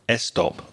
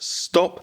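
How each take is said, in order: First: An extra eh vowel comes before the s. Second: The word starts directly on the s sound. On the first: The speaker calls it wrong. "you might be very tempted to put a little eh sound in front" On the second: The speaker calls it right. "No, it's just stop"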